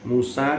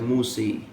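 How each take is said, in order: First: The final vowel is a plain open 'a'. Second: The final vowel is tilted toward 'i'.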